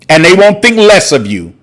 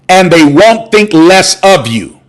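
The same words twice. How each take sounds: First: The phrase is said at a normal pace. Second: The phrase is said slowly and smoothly.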